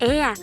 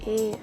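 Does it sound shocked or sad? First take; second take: shocked; sad. First: It sounds shocked. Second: It sounds sad.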